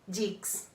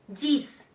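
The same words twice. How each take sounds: First: It is pronounced with an English sound. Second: It is pronounced with a French sound. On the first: The speaker calls it wrong. "e não dix" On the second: The speaker calls it right. "Mesma coisa para o dez. Dix"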